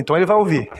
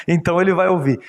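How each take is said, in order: First: Said in the usual way. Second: Repeats it with a laugh through "Então ele vai ouvir"; chuckling, amused retelling of "Então ele vai ouvir". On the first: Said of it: "Então ele vai ouvir." (ripetuto ridendo)". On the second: Retold or imitated. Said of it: "Então ele vai ouvir." (prima volta)".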